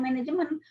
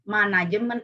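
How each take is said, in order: First: It is pronounced with English-like sounds. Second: It is pronounced with Indonesian sounds. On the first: The speaker calls it wrong. "bukan manajemen" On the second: The speaker calls it right. "bacanya juga harus baca sesuai dengan bahasa Indonesia"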